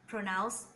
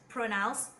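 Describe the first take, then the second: Both takes have the same delivery.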